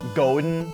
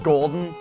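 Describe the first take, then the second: First: It is said without the L sound. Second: It is said with a clear L sound.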